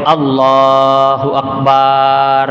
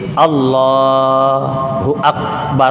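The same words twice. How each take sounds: First: The vowel after the b is drawn out long. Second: The vowel after the b is short. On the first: The speaker calls it wrong. "ba tidak boleh dipanjangkan" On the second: The speaker calls it right. "mesti Allahu Akbar"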